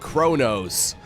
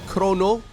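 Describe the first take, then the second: First: The name is pronounced in an English way. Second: The name is pronounced in a French way. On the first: "he goes by the nickname of Kronos" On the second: "if he is from France, or maybe he's a French native speaker, uh, I guess it would be Chrono"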